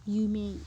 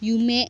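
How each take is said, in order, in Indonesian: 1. Bunyi vokal terakhir dipanjangkan. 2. Bunyi vokal terakhir pendek. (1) "tapi dibaca yumei" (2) "berarti bukan dibaca yu, yume"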